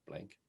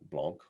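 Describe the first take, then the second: First: It is said the English way, like blank. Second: It is said the French way, nasal vowel.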